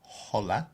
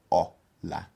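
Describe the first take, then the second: First: "hola" with a breathy English H at the front; wrong hola, H sounded. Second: "hola" as "o-la", no H sound; "hola" with the H dropped completely; silent H. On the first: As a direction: say "hola" with the H audible, like "holla". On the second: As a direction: start "hola" straight on a pure o vowel, split into two syllables. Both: Shown as a demonstration. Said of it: "You don't pronounce the H".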